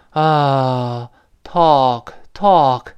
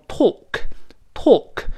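First: American "talk" with an open, drawn-out "ah"; American sigh-like vowel. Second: British "talk" with a long rounded "aw"; British pronunciation. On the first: Teacher contrasting American with British, open sighed American vowel. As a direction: relax into an American "ah", slowly. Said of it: "它变成叹气音". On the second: Teacher showing learners British English, rounded British vowel. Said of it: "英式发音读成". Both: Shown as a demonstration.

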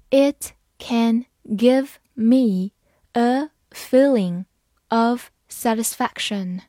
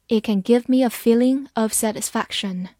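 First: Slow, phrase by phrase; slow reading. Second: Said in the usual way. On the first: Shown as a demonstration. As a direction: read it slowly for learners. (慢慢地读) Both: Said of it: "好，慢慢来读".

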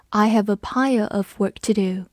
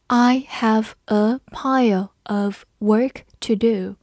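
First: Said in the usual way. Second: Slow, every word on its own; slow read-along. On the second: Shown as a demonstration. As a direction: model it slowly for learners. (放慢语速，逐词领读) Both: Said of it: "跟着我慢读一遍".

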